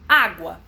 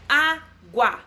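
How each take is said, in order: First: Said in the usual way. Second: Água broken slowly into á-gua; split into syllables. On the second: Shown as a demonstration. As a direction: tap out the two beats of água. (água separada em sílabas) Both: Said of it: "Dissílaba".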